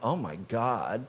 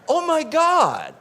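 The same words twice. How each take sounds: First: It sounds dismayed, like a groan. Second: It sounds awed and reverent. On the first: The sight in the mirror is a disappointment. The speaker calls it wrong. "instead of saying" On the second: The divine is recognized in the mirror. The speaker calls it right. "do you say"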